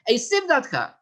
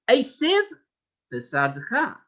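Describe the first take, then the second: First: The two words run together without a break. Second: The two words are separated by a short break. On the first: The speaker calls it wrong. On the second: The speaker calls it right.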